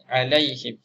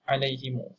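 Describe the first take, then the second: First: The h takes an i vowel; m ends it. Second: The h takes an i vowel; u follows m. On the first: "huruf ha berbaris bawah, mim mati" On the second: "silah mimul jama'"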